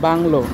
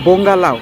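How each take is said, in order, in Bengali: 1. এটি এক শব্দ হিসেবে বলা হয়, 'lo' দিয়ে শেষ হয়। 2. এটি দুই ভাগে বলা হয়, 'lau' দিয়ে শেষ হয়। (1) "উচ্চারণটা হচ্ছে বাংলো" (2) "আমার বন্ধুর উচ্চারণ অনুযায়ী এটা বোঙ্গা লাউ"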